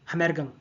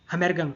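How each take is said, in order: Both takes have the same delivery.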